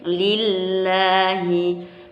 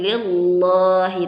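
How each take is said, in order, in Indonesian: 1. Bunyi L diucapkan tipis dan ringan. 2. Bunyi L diucapkan tebal dan penuh. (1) "tarqiq ringan" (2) "nggak boleh lillahi"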